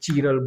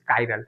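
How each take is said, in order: First: The word begins with a 'chee' sound. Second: The word begins with a 'kai' sound. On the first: The speaker calls it wrong. "कुछ लोग चीरल बोल देंगे" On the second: The speaker calls it right. "But actual में this is कायरल"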